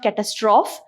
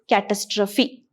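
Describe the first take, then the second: First: The word ends without a final 'ee' sound. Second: The word ends with a final 'ee' sound. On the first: The speaker calls it wrong. "It is not catastrophe" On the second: The speaker calls it right. "it is catastrophe. Something that is pronounced as apostrophe"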